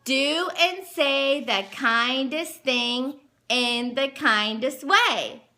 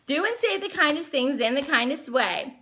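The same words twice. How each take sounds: First: Slow, deliberate read-aloud; each word given room, like a lesson. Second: Said in the usual way. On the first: Shown as a demonstration. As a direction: spell it out slowly for a small child. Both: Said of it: "And then it says".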